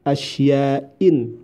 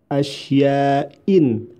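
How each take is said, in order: Both takes have the same delivery.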